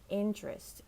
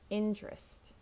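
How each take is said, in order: First: It is said with two syllables, like intrest. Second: The same.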